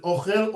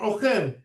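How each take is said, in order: First: "ochel" stressed on the first syllable, O-chel; mil'el stress. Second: "ochel" stressed on the last syllable, o-CHEL; mil'ra stress. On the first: Teacher asking which word it is, "ochel" with first-syllable stress. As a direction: lean on the O of "ochel". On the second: Teacher asking which word it is, "ochel" with final stress. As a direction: land on the end of "ochel". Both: Shown as a demonstration. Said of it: "you need to know".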